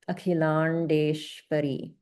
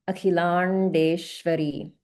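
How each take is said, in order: First: The long vowels and consonants are clearly held. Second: The same.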